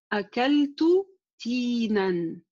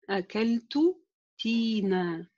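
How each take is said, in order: First: The last word ends with an n sound. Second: The last word ends with a long a vowel. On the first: The phrase is read in continuous speech. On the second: The phrase is read at a stop.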